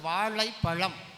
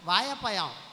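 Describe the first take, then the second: First: The 'zh' sound is pronounced fully and clearly. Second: The 'zh' sound is worn down into a 'y'. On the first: This is how people in the far south say it. The speaker calls it right. "Kanyakumari மாவட்டம்... சரியா சொல்லிப்பாங்க" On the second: This is how people in Chennai say it. The speaker calls it wrong. "சென்னையில் இருக்கிற தமிழர்கள்"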